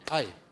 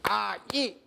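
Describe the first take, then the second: First: The two vowels glide together in one beat. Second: The two vowels are said as two separate beats. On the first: "걔네들은 한 박자야" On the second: "이렇게 따라할 것 같아요? 못합니다"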